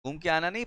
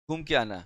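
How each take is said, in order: First: नहीं pushed up with a rising, correcting tune; stress on नहीं. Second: Said in the usual way. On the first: Shown as a demonstration. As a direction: correct yourself, leaning on नहीं. (नहीं पर ज़ोर देकर सुधारते हुए)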